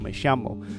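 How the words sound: It is said with a South American Spanish accent. "in certain South American countries and dialects, they're much more likely to say something like"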